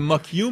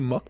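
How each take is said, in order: First: The name is said as two syllables. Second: The name is said as one syllable. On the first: This is the English reading of the name. "En anglais, ça fait mock you" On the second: This is the French reading of the name. "en français, nous, on appellerait ça mock"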